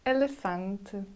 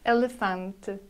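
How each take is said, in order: First: The final syllable is soft and barely voiced. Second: The same.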